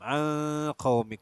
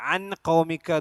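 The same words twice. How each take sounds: First: The n is hidden with a nasal hum. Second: The n is pronounced clearly and fully. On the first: The speaker calls it right. "ഗുന്നത്ത് ഇഖ്ഫാവും അതുപോലെ തന്നെ ഗുന്നയും വേണം" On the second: The speaker calls it wrong. "എന്ന് പറയാൻ പാടില്ല, ഇദ്ഹാറല്ല"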